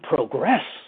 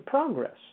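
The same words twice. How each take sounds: First: The stress is on the second syllable. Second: The stress is on the first syllable. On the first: Progress is an ongoing movement forward. The speaker calls it right. "A verb, move forward" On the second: Progress is a place one arrives at. The speaker calls it wrong. "to a destination, to a place, to a stop on the train line"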